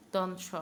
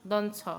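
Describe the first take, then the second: First: Teacher models দন স with a clean s sound; দন স said with a clear hissing s; correct s. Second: Says দন ছ with a ch sound instead of s; দন ছ with the s turned into ছ; mispronounced s. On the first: Shown as a demonstration. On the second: Acted. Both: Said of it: "বলুন, দন স".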